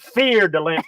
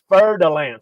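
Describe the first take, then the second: First: The first word sounds like 'fear'. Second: The first word does not sound like 'fear'. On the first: "I like to call them fear de lance because they are one of the most feared" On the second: "I think it's actually pronounced like Tom says"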